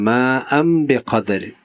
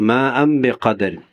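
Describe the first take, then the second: The two takes are said the same way.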